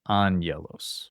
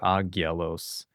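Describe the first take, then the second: First: The first gamma is said as an N sound. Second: A hard G is said without an N sound. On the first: The speaker calls it right. "the first one sounds like a nu, which is like the N sound" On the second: The speaker calls it wrong. "or agyelos"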